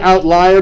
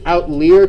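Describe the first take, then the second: First: The middle part sounds like the English word 'lie'. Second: The word is said in a French-style way. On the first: The point lies outside the rest of the data. "I say outlier because this point lies outside" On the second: The word comes from French. "I think it's outlier because I think it's French"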